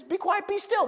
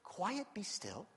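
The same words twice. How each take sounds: First: Higher firm command; firm rebuke. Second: A gentle hush, not a rebuke; soft, gentle. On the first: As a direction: command it plainly. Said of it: "he just says". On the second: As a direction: say it meekly, almost under your breath. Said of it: "Jesus doesn't say". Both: Shown as a demonstration.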